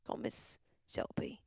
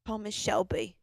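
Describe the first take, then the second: First: Slow, voiceless whisper. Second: Said in the usual way. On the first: Pretend. Host calling Miss Shelby after saying it aloud, whispered. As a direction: whisper it slowly and secretively.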